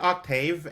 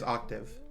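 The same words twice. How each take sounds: First: The last syllable has an 'a' vowel sound. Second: The last syllable has an 'i' vowel sound. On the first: This is how the other person says it. "You said octave" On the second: This is how it is usually heard. "the way that I usually hear it is octave"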